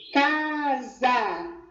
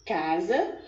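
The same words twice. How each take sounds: First: CASA drawn out as two long beats, CA-SA; syllable by syllable. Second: Said in the usual way. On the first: Shown as a demonstration. Teacher showing pupils two openings of the voice, CASA syllable by syllable. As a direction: stretch both syllables of CASA separately. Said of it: "duas vezes essa pronúncia". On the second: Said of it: "de duas vezes".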